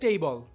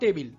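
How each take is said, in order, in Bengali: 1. শব্দটি একটি সাধারণ 'bl' ধ্বনি দিয়ে শেষ হয়। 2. শব্দটি একটি 'bil' ধ্বনি দিয়ে শেষ হয়। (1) "এটা সঠিক উচ্চারণ টেবল" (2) "বাংলায় আমরা টেবিল বলে থাকি"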